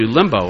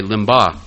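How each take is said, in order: First: Said in the usual way. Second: "limba" ending in an open AH instead of OH; "limba", the last vowel opened to AH; joking alternative pronunciation. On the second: Retold or imitated. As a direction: say "limba" with an AH at the end. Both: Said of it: "as some would say today".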